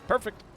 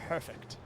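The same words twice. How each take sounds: First: It is said in a booming fighting-game announcer voice. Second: It is said in an ordinary speaking voice. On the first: "I could sound like an old video game, like an old fighting game" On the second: "One could even say perfect"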